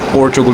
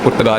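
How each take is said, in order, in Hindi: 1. यह 'Portugal' ऐसे बोला जाता है, तीन सिलेबल के साथ। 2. यह 'Purtgal' ऐसे बोला जाता है, बीच का स्वर नहीं। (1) "पोर्चुगल होता है, सही है" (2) "पुर्तगाल नहीं होता"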